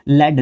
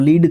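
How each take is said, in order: First: The vowel is short, like in 'bed'. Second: The vowel is long, like in 'seed'. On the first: It names the soft metal. "जब noun के रूप में लीड को मैं कहता हूँ लेड बोला जाता है" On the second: It means to guide others. "जब वर्ब के रूप में पढ़ते हैं तो लीड बोलते हैं इसको"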